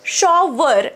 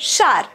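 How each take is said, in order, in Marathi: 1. हा शब्द दोन पूर्ण अक्षरांत म्हटला जातो. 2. हा शब्द एकाच अक्षरात दाबून म्हटला जातो. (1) "शॉवर असं आपल्याला म्हणायची सवय" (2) "असा उच्चार ट्राय करा, जास्ती फ्लुएंट साऊंड कराल"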